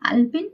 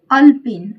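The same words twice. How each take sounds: First: अल्पिन begun with open long "aa"; correct long AA. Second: अल्पिन begun with short "a", loud; wrong short A. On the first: Teacher giving the correct word, अल्पिन with long first vowel. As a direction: say "aal-pin" for अल्पिन. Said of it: "अल्पिन शुद्ध है". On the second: Teacher reading out the faulty word, अल्पिन with short first vowel. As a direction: punch out "ul-pin" for अल्पिन. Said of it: "अल्पिन जो है अशुद्ध है". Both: Shown as a demonstration.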